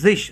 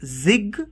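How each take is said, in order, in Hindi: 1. यह शब्दांश sh ध्वनि पर समाप्त होता है। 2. यह शब्दांश कठोर g ध्वनि पर समाप्त होता है। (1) "श का साउंड आ रहा है पीछे" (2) "not zig"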